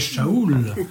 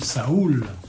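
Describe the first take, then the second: First: The name begins with a sh sound. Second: The name begins with a plain s sound. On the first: This is closer to the Semitic pronunciation. The speaker calls it right. "ils diraient Shaoul, ça aurait été encore plus juste" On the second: This is the Greek rendering of the name. The speaker calls it wrong. "le grec traduit Saoul"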